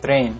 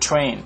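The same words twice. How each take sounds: First: The t has no puff of air. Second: The t has a strong puff of air. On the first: The speaker calls it wrong. "bukan bukan" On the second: The speaker calls it right. "dibaca train"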